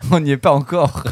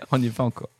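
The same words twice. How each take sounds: First: Through a chuckle; laughing. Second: Said in the usual way. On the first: Real, not acted. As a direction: say it while still laughing. Said between laughs, then repeated.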